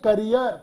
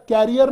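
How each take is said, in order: First: The first syllable sounds like 'kuh'. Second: The first syllable sounds like 'care'. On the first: The speaker calls it right. "इसकी right pronunciation होती है करियर" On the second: The speaker calls it wrong. "कैरियर नहीं"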